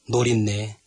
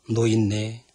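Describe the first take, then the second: First: An r sound links No and innae together. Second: No and innae are kept apart, no r sound. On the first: The speaker calls it wrong. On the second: The speaker calls it right.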